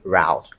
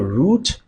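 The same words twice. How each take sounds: First: It is said with an American pronunciation. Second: It is said with a British pronunciation. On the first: "Americans say" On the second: "Britons say"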